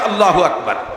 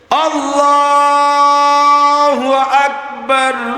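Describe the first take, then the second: First: It is said quickly and short. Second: It is drawn out slowly and long.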